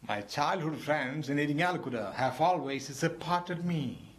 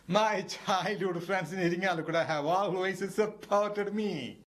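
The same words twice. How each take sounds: First: It is said in a sad, regretful voice. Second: It is said while laughing, amused.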